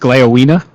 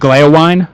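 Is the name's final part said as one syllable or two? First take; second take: two; one. First: The ending is two syllables, 'wi-neh'. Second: The ending is one syllable, like 'wine'. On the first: The speaker calls it right. "Apparently, it's" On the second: The speaker calls it wrong. "I got used to saying"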